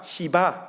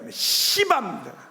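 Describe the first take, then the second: First: It is said in a Seoul accent. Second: It is said in a Busan accent.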